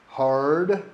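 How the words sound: The R sound at the end is pronounced. "You see how I'm pronouncing the R"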